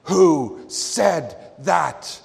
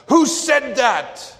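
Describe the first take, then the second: First: Loud, very slow, word-by-word demand; screamed demand. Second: Very high, loud, slow bellow; furious scream. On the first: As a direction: pound out each word separately, like a fist on the table. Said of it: "pounded upon the table and screamed". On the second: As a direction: explode at the silent room, much higher and louder. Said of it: "a third time he pounded upon the table and screamed". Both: Retold or imitated.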